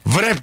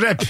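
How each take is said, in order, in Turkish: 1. Kelime r'den önce bir v sesiyle başlar. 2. Kelime doğrudan bir r sesiyle başlar. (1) "Bir de vrap değil rap" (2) "Oradaki W düşer mi? Düşüyor"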